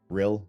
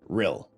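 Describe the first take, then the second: First: It is said without a Welsh accent. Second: It is said in an attempted Welsh accent. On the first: "I'm not even saying it with uh, enough of a a a, um, a horrendous attempt at a Welsh accent" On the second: "a horrendous attempt at a Welsh accent"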